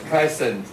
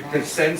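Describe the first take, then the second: First: The stress is on the first syllable. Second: The stress is on the second syllable. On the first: It is used as a noun or adjective. "For now, we will stress on mostly on the first syllable" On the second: It is used as a verb. "for verb, we stress on the second syllable"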